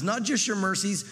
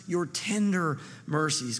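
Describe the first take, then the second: First: Said in the usual way. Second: Tender leaned on, slow and drawn out; slow down and press "tender"; stress on tender. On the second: Shown as a demonstration. Preacher to congregation, slow with tender stressed.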